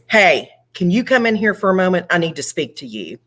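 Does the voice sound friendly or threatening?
threatening. The tone is intimidating and threatening. The listener is in trouble. "it sounded a little more intimidating and threatening"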